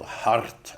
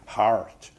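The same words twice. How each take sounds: First: The R after the vowel is rolled. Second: The R after the vowel is clearly pronounced. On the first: This is another variant from earlier times. "even a trill" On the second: This is how it was said in earlier times. "in those days, it would have been heart"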